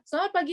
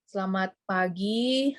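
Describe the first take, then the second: First: It is spoken very fast. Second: It is spoken very slowly. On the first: The listener cannot follow what was said. "jadi terlalu cepat gitu loh ya" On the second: The listener would fall asleep. "itu orang keburu tidur ya"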